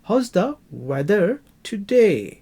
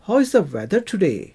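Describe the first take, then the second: First: "How's" run together like "house", slow and clear; contracted "how's". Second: "How is" said as two separate full words, slowly. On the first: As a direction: say "How's" as one word, like "house". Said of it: "अंग्रेज जब बोलेंगे तो हाउस बोलेंगे". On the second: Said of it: "वो how is नहीं बोलेंगे". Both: Shown as a demonstration.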